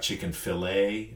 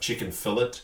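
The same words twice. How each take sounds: First: 'Fillet' is said 'fi-LAY', with the stress on the second syllable and the 't' silent. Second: 'Fillet' is said 'FILL-it', with the stress on the first syllable and the 't' sounded. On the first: This is the American way of saying it. "You have chicken fillet" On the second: This is the Australian way of saying it. "We have chicken fillet"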